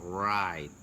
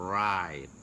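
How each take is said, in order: Both takes have the same delivery.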